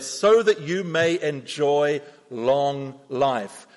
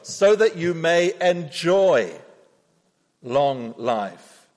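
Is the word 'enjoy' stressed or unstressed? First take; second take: unstressed; stressed. First: The word enjoy gets no special stress. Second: The word enjoy is strongly stressed.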